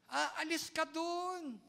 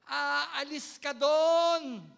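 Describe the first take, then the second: First: Gentler repeat. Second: Drawn out, every word weighted and loud; slow firm emphasis. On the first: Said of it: "Hindi po ako galit sa inyo". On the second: Pastor pressing the congregation, slow and emphatic. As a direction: lay down the command slowly and hard. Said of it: "bakit ganyan ang tono mo". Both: Shown as a demonstration.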